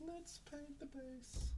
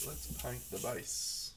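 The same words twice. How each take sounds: First: Tiny, high, soft voice; small high-pitched echo, drawn out; playful high echo. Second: Said in the usual way. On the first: Pretend. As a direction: repeat it slowly in a quiet falsetto. Echoes own line in put-on voice.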